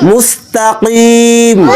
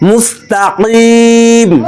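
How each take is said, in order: No difference in how they are said.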